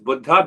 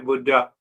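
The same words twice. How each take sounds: First: It is said with the Sanskrit pronunciation. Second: It is said with an American pronunciation. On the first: This sound gives the word meaning awakened. The speaker calls it right. "the word is pronounced as Buddha means awakened" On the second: This sound suggests the word meaning old. The speaker calls it wrong. "here in America, we say Buddha. Buddha means old"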